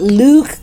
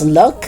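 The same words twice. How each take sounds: First: The vowel is long and drawn out. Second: The vowel is short and clipped. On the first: The speaker calls it wrong. "So it's not look" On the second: The speaker calls it right. "It's look, good, and foot. Don't make it long, it's short"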